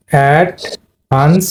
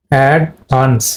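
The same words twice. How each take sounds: First: অ্যাডভান্স stretched very slowly, rising at the end; slow drawn-out demo. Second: অ্যাডভান্স said at normal speed with a falling end; normal speed model. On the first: Teacher showing students where the stress falls, very slow demo. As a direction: draw out অ্যাডভান্স syllable by syllable. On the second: Teacher giving students the normal word after the slow take. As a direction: say অ্যাডভান্স once, cleanly and finished. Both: Shown as a demonstration. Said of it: "দুটাই কিন্তু দেখো".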